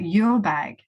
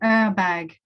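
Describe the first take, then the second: First: The first syllable sounds like the word 'your'. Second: The first syllable sounds like the start of 'urban'. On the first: The name is heard as 'your bag'. "a lot of people were speaking about your bag" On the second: The name blends urban and bag. "the combination of urban and bag"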